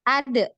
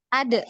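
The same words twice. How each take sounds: First: The final d is released with a bounce. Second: The same.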